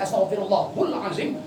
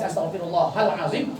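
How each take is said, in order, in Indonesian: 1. Akhiran sebelum azim diucapkan 'hul'. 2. Akhiran sebelum azim diucapkan 'hal'. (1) "Kalau dibaca astaghfirullahul azim" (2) "Kalau dibaca astaghfirullahal azim"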